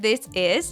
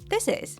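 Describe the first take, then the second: First: The two words are said separately. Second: The s sound flows directly into is.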